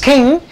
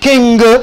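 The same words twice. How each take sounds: First: The word ends in a nasal with silent g. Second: The word ends with an audible hard g. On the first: The speaker calls it right. "this is king" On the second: The speaker calls it wrong. "this is not king"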